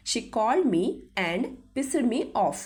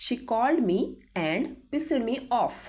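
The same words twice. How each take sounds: The two takes are said the same way.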